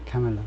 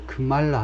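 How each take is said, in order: First: The stress is on the first syllable. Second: The stress is on the second syllable. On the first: The speaker calls it right. "이 인도 이름은 앞에 액센트를 둬야 된다는 거죠" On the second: The speaker calls it wrong. "삼 음절이면요 두 번째 음절에 있어서 크말라 할 것 같은데"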